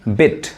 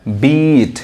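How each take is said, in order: First: "बिट" with a quick short i; crisp short-vowel "बिट"; short, fast vowel. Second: "बीट" with the ee held long; slow, drawn-out long-sound "बीट"; long vowel. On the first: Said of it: "short sound fast पढ़ाता है". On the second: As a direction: stretch out the ee in "बीट". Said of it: "वही long sound है". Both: Shown as a demonstration.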